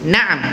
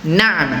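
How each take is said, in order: First: The middle ain sound is kept short. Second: The middle ain sound is kept short.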